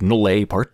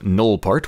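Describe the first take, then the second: First: The name is said in a fancier way. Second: The name is said in a plain way. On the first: "in some more fancy way" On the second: "I'm hoping I'm actually pronouncing that correctly"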